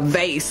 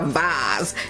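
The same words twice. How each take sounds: First: The word is said the plain, everyday way. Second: The word is said the fancy, posh way. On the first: The object is a cheap item. The speaker calls it right. "it's a vase" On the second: The object would be an expensive item. The speaker calls it wrong. "so it's not a vase"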